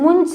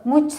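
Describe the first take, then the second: First: It is said with a nasal before a plain 'ch'. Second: It is said with an aspirated 'chh' and no nasal. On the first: The speaker calls it right. "मुंच म्हणायचं" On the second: The speaker calls it wrong. "मुच्छ नाही म्हणायचं"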